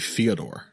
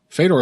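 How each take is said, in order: First: The first syllable sounds like 'fyo'. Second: The first syllable sounds like 'fed'. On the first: The speaker calls it right. "supposed to be Fyodor" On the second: The speaker calls it wrong. "Fedor is supposed to be Fyodor"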